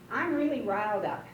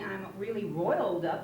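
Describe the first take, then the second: First: The vowel in the verb sounds like 'eye'. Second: The vowel in the verb sounds like 'oy'. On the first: "pronounced it like in a long I" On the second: "it's R O I L, and you ought to be saying I'm really roiled up"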